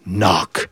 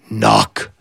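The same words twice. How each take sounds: The two takes are said the same way.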